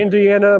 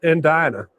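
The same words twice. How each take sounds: First: The name is pronounced in its usual way. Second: The name is pronounced in a twisted, distorted way.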